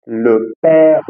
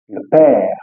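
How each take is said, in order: First: Père said wrong; père with the wrong vowel; wrong French e. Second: Père said the right way; père said correctly, with an open e; correct French e. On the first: Teacher shows the wrong père. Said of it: "Eu não vou falar". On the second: Teacher shows students the right père. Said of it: "eu vou falar". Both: Shown as a demonstration.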